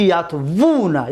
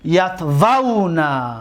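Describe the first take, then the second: First: یتوونا said as yatvunā, with a u sound; یتوونا mispronounced as yatvunā to show the error; wrong form. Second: یتوونا said slowly as yatvanā, with a short a before the n; یتوونا pronounced yatvanā, drawn out slowly; correct form. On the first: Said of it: "غلط است". (یتوونا را غلط و با «او»، «یَتوُونا» بگو) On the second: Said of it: "نه اینکه یتوونا". (یتوونا را آهسته و درست «یَتوَنا» بگو) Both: Shown as a demonstration.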